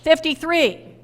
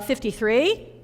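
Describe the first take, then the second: First: The voice falls at the end like a statement. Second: The voice rises at the end like a question.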